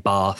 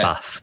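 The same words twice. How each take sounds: First: It is said in a southern English accent. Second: It is said in a northern English accent.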